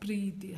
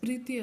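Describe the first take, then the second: First: The first vowel is long. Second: The first vowel is short. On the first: The speaker calls it right. "ಹಾಗಾಗಿ ದೀರ್ಘ ಬರೀಬೇಕು" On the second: The speaker calls it wrong. "ಪ್ರೀತಿ ಅಲ್ಲ"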